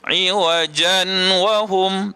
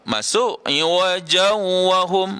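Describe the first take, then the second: First: The n is pronounced clearly before the w. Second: The n merges into w without any nasal sound. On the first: "Kalau kita bunyikan dengan ya, begini ... tak betul lah" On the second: "masuk tapi tak dengung, pun salah juga"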